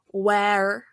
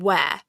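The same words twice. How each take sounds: First: It ends with a clear, hard R sound. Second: It ends in an open vowel with no R. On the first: The speaker calls it wrong. "they get the E A bit, the where, but then they add the R" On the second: The speaker calls it right. "where we almost don't say the R, like it's an open-ended vowel sound"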